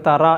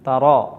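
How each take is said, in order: First: The r sound is light and thin. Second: The r sound is heavy and full-mouthed. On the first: "മലയാളത്തിൽ എഴുതിയാൽ നമ്മൾ വായിക്കേണ്ടത് തറ എന്നാണ്" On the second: "അറബിയിലാകുമ്പോൾ അത് തറോ എന്ന് റാ എന്ന ശബ്ദം കേൾക്കണം"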